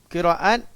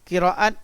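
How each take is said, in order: The two takes are said the same way.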